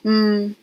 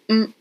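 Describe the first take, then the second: First: The nasal sound is held and drawn out. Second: The nasal sound is cut off with a stop. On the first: "instead of dragging out the mm" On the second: "this is like a stop"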